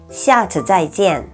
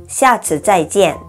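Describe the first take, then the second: Both takes have the same delivery.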